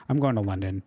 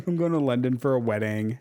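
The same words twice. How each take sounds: First: A light British accent, lower. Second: Said in the usual way. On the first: Shown as a demonstration. Telling viewers her trip plans in a British accent. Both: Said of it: "Was that a good British accent?".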